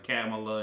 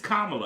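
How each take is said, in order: First: The first part sounds like 'camel'. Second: The first part sounds like 'comma'. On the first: The speaker calls it wrong. "old people ain't gonna say it right" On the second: The speaker calls it right. "It's Kamala. I remember the comma"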